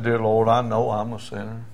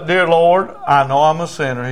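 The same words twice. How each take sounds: First: Subdued imitation of a crying man; tearful repetition. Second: Raised voice, line for repeating; louder opening, settling toward the end; leading a prayer. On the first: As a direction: repeat the prayer back meekly. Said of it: "He's crying". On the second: Retold or imitated. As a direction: lead the sinner's prayer firmly. Preacher leads prayer for repeating.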